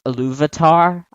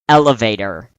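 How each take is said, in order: First: It sounds different from the word elevator. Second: It sounds exactly like the word elevator. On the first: This is the name's proper form. The speaker calls it right. "Before anyone ever pronounced Iluvatar" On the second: This is how the name was misread before. The speaker calls it wrong. "I always pronounced it elevator"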